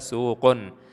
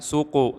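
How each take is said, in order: First: The word ends with an added n sound. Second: The word ends in a vowel without n. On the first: The speaker calls it right. "tapi harus dibaca suqun" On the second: The speaker calls it wrong. "Suku tidak boleh"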